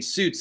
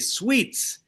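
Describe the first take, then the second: First: The vowel is an 'oo' sound. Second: The vowel is an 'ee' sound. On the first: The show's name as it is normally said. "instead of saying Suits" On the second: How fans abroad said the show's name. "they say sweets"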